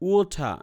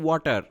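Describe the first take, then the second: First: The final r is dropped and t is clear. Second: The t sounds like a d, r is heard. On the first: "ব্রিটিশে কি বলে আপনার আর তারা উচ্চারণ করে না" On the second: "আমেরিকায় বলতো ওয়াটার বা ওয়াটার ড উচ্চারণ হতো"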